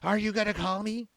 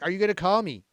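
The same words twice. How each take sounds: First: It is said in a put-on imitating voice. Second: It is said in the speaker's ordinary voice.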